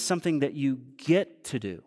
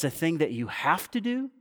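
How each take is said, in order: First: "get" set apart and stressed, then falling away. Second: "have" stressed as a burdensome duty, rising to a question. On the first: Preacher offering congregation the privilege instead, stress on "get". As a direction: lean on "get" as the better alternative. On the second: Preacher challenging congregation on duty, stress on "have". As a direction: lean on "have", questioning lift at the end. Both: Real, not acted.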